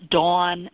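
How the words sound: The vowel is a rounded 'aw' sound. "I'm going to exaggerate a little, but I grew up pronouncing them Dawn and Don"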